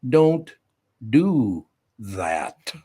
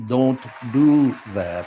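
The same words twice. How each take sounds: First: Put-on little boy's stern don't do that; imitating a stern little boy. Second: Put-on slow, stern kid's warning; mock stern grandson scolding; stern little boy. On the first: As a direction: mimic the grandson's stern scolding. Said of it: "looks at me and goes". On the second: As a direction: drag it out like a stern toddler. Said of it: "repeating the grandson's stern line".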